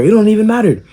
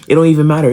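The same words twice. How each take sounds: First: High, strained mock bravado; the kid repeating it higher and shriller to a tall jock; squeaky cocky kid. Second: Lightly mocking cocky kid. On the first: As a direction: push it way up like a kid trying to act tough. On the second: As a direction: toss it off with a touch of swagger. Kid talking trash.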